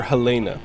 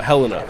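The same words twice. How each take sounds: First: "Helena" as huh-LAY-nuh; Helena, second-syllable stress. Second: "Helena" as HEL-uh-nuh; Helena, first-syllable stress. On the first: Streamer offering another pronunciation, "Helena" as huh-LAY-nuh. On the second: Streamer naming the Montana town, "Helena" as HEL-uh-nuh. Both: Shown as a demonstration. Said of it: "however you want to pronounce it".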